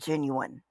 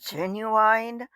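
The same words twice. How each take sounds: First: Genuine is said in the speaker's usual pronunciation. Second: Genuine is said in a mocked imitated pronunciation. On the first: This is how the speaker says the word. The speaker calls it right. "I pronounce it genuine" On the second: It copies someone else's way of saying the word. The speaker calls it wrong. "I am making fun of his pronunciation"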